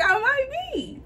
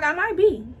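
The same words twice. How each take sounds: First: Much higher "I might be", giggling nervously; nervous laughing repeat. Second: A sheepish "I might be", slightly raised; tentative confession. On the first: To her mother in the car, nervous giggling repeat. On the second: In the car, telling her mother, sheepish confession. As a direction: slip the news out carefully. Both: Retold or imitated.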